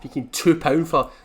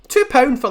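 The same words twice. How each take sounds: First: Said in the usual way. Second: "two pound for" higher and louder, hitting "two"; stress on two pound. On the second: Shown as a demonstration. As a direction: punch "two" in outrage.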